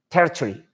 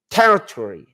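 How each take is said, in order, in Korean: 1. 영국식 억양으로 말해요. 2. 미국식 억양으로 말해요. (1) "근데 영국 사람들은 territory" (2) "미국 사람들은 이거 어 발음에 이렇게 요런 어 territory 이렇게 어, 어를 길게 발음해요"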